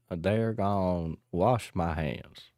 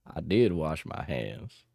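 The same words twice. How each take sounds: First: Slower, heavier Texas drawl; Texas accent. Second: Slow Texas drawl; Texas accent. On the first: Streamer hamming up a Texas accent. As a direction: stretch it out like a cowpoke. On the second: Streamer insisting in a Texas accent. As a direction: drawl it like a cowpoke. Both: Pretend. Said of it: "cowboy accent line".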